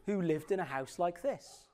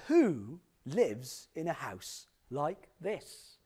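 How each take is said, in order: First: Said in the usual way. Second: Slow, drawn-out attempt at a TV presenter's accent; Lloyd Grossman. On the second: TV host touring a mystery home, in a badly imitated drawling accent. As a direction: exaggerate the presenter's accent, stretching each word. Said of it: "I can't do his accent".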